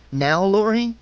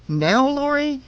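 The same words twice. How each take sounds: First: NOW, LORI lifted into a rising question. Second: NOW, LORI pitched much higher, rising; urgent questioning. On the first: Woman asking herself when to strike, questioning. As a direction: ask "Now, Lori?" with the pitch climbing at the end. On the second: Woman asking herself again as he closes in, urgent questioning. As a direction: ask "Now, Lori?" high and pressing. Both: A narrator's reading.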